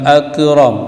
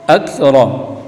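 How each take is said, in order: Both takes have the same delivery.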